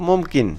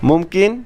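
First: It is said plainly, as a statement. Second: It is said louder, with a questioning tune. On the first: Stating that something is possible. "আর যদি বলি নর্মালি সম্ভব" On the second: Asking whether something is possible. "কাউকে যদি আমরা প্রশ্ন আকারে করি তাহলে একটু জোরে সুরে করতে হবে"

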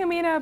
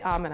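First: The name is said with anglicized pronunciation. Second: The name is said with Pakistani pronunciation. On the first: The speaker calls it wrong. "people hear me and they're like, I've been saying Amina" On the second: The speaker calls it right. "I say Amina, actually ... that's the Pakistani way of pronouncing it"

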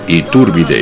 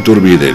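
First: The stress falls on the syllable with u. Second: The stress falls on another syllable, not u. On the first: The speaker calls it right. "recuerda que lleva acento en la U" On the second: The speaker calls it wrong. "No Iturbide"

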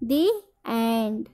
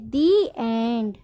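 First: 'The' is said with a long 'ee' vowel. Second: 'The' is said with a long 'ee' vowel.

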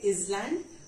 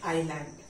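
First: The S sound is pronounced in the word. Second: The S sound is silent in the word. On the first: The speaker calls it wrong. "we should not say island" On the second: The speaker calls it right. "S will be silent"

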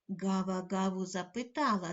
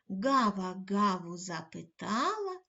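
First: The line is said at a medium pace. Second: The line is said at a slow pace. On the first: "кожного разу пришвидшуючи темп" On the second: "кожного разу пришвидшуючи темп"

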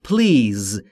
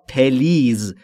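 First: The p runs straight into the l. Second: A short e vowel splits the p and l. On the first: The speaker calls it right. "تلفظ درست به این صورته please بین P و L صدایی وجود نداره" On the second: The speaker calls it wrong. "این دو تلفظ اشتباهه"

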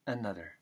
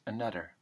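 First: The th is said almost like a d. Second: The same.

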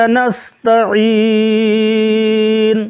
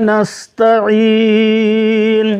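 The two takes are said the same way.

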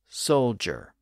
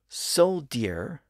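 First: The middle consonant is a J sound. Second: The middle consonant is a plain D sound. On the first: This is the pronunciation used today. "they shifted to a J sound" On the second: This is the older original pronunciation. "words with a D sound"

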